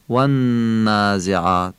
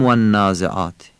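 First: Slow والنازعات, hum long on the n; "والنازعات" as "wannnn-aazeaat", stretched ghunna; held nasal N. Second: "والنازعات" without holding the nasal n; unstretched N. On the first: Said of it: "صدای نون رو بیشتر میکشیم". («والنازعات» با نونِ کشیده و غنه) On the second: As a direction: say والنازعات with a quick double n. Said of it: "نمیگیم". («والنازعات» بدون غنه) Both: Shown as a demonstration.

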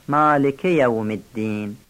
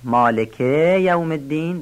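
First: مالک with a short "ke" going straight into یوم; correct short vowels. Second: مالک with a dragged final "keee" before یوم; wrongly stretched short vowel. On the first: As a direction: recite مالک یوم الدین without stretching the "ke". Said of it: "درست نیست". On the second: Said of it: "صدای کوتاه رو نکشیم". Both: Shown as a demonstration.

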